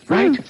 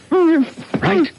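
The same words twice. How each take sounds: First: Said in the usual way. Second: Right? with a big rising pitch, urging; Right? pushed high as a demand for a nod; pressing question. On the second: Acted. Reporter holding her mouth presses for promise, Right? rising sharply.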